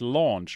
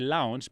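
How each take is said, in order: First: The vowel sounds like 'aw' in 'law'. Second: The vowel sounds like 'ow' in 'cow'. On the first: The speaker calls it right. "but it's launch" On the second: The speaker calls it wrong. "I know I always say launch"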